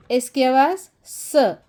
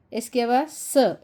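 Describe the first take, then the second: First: "एस की आवाज़ स" slowed, with "स" stressed as a bare sa; teacher stressing that "एस" sounds "स"; slow emphatic demo. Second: Said in the usual way. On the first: Shown as a demonstration. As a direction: spell it out slowly, leaning on "स".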